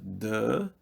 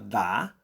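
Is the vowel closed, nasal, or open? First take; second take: closed; open. First: The vowel is closed and oral. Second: The vowel is open and oral. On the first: "Se fosse fechado, seria" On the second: "D com A aberto forma dá"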